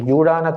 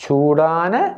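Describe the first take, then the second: First: The word begins with a j sound. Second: The word begins with an s sound. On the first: The speaker calls it wrong. "ஜாவை தேவையில்லாமல் உச்சரிப்பார்கள்" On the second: The speaker calls it right. "சூடான தோசை"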